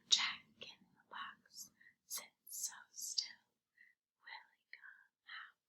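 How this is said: It is spoken in a whisper.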